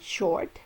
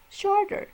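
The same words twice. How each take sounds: First: Said in the usual way. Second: Shorter said much higher; comparative stressed. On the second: Shown as a demonstration. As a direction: lift the -er ending of shorter up high.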